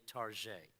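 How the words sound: It is said in a French-style way.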